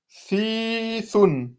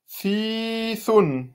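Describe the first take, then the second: First: The first vowel is long. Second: The same.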